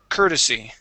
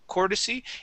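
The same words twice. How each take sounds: First: The first syllable sounds like 'cur'. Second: The first syllable sounds like 'core'. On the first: The speaker calls it right. "this is cur, courtesy" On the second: The speaker calls it wrong. "and saying court, courtesy"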